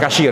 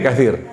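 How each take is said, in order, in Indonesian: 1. Konsonan tengahnya bunyi 'sh'. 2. Konsonan tengahnya bunyi 'th' yang lembut. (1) "bukan kasyir ya. Fa fa bukan shin" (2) "kathir bukan kat"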